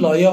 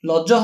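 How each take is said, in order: First: The second consonant is a 'y' sound. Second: The second consonant is a 'j' sound. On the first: The speaker calls it right. "ଲୟ ହବ" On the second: The speaker calls it wrong. "ଲଜ ହବନି"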